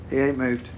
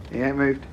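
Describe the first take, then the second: No difference in how they are said.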